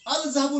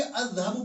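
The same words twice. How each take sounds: First: "अज़हबु" said al-zahabu, L audible; higher, louder demo of "अज़हबु" as al-zahabu; wrong reading, L sounded. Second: "अज़हबु" with silent L and doubled first consonant; correct assimilated reading. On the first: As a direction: put a clear L before the Z in "अज़हबु". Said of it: "अज़हबु नहीं पढ़ेंगे". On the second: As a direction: drop the L and hold the Z-like sound in "अज़हबु". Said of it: "अज़हबु पढ़ेंगे". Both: Shown as a demonstration.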